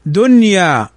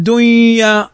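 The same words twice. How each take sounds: First: "دنيا" slowly with a clear noon; correct clear noon. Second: "دنيا" wrongly merged as "دُيّا"; wrong pronunciation. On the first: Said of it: "تنطق كما هي". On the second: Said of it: "هذا خطأ". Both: Shown as a demonstration.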